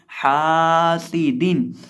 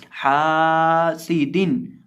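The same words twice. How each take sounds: The two takes are said the same way.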